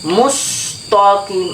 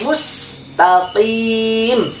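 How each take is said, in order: First: The t sound is heavy, like a to sound. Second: The t sound is light, lips slightly smiling. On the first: The speaker calls it wrong. "seperti itu, salah" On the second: The speaker calls it right. "agak senyum sedikit"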